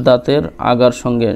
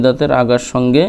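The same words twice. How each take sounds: The two takes are said the same way.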